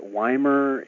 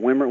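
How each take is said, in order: First: The first vowel is long, like 'eye'. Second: The first vowel is short, like 'swim'. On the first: The speaker calls it wrong. "is it Weimer" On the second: The speaker calls it right. "double consonant, short vowel, like swimmer"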